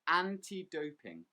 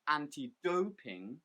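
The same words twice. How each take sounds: First: The stress falls on the word anti. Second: The stress falls on the word doping. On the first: The speaker calls it right. "the stress is on the first word anti" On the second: The speaker calls it wrong. "We don't say anti-doping"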